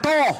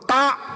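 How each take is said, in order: First: The vowel is pronounced as an 'o'. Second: The vowel is pronounced as a clear 'a'. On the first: The speaker calls it wrong. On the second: The speaker calls it right. "Huruf Ta"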